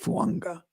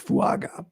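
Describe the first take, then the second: First: An 'n' sound comes before the last syllable. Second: The last syllable has no 'n' before it. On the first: The speaker believes this is correct. The speaker calls it right. "but I think it's Fuanga" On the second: A pronunciation guide gives this form. The speaker calls it wrong. "I got a pronunciation here that says Fuaga"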